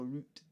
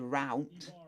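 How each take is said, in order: First: It is said with a British accent. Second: It is said with an American accent.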